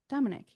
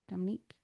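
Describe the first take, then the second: First: The name ends with a short 'ick' sound. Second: The name ends with a long 'eek' sound. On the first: The speaker calls it right. "I think they pronounce it like I K at the end" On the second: The speaker calls it wrong.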